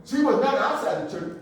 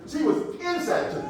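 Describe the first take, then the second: First: Firm denial leaning on OUTSIDE; stress on OUTSIDE. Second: INSIDE hit higher as the correction; stress on INSIDE. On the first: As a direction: set up the contrast on outside. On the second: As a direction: punch inside against the denial. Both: Shown as a demonstration. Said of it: "I gotta emphasize".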